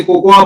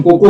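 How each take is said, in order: First: कोकोआ said with a full extra 'आ' at the end, three syllables; the common mistaken कोकोआ, ending on a sounded 'आ'; wrong pronunciation. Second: कोको as two clean syllables, no trailing 'आ'; the proper Hindi कोको, ending short on 'को'; correct pronunciation. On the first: Teacher to listeners, demonstrating the wrong कोकोआ with a sounded final 'आ'. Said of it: "कई लोग गलती से कोकोआ बोलते हैं". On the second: Teacher to listeners, giving the correct two-syllable कोको. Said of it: "pronunciation कोको होता है". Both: Shown as a demonstration.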